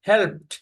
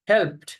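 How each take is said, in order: First: The word ends with a t sound. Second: The word ends with a t sound.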